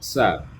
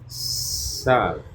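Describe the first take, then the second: First: The syllable is said quickly at normal speed. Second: The syllable is drawn out slowly, the s prolonged. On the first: "pelafalan secara normal" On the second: "kalau diperlambat gerakannya"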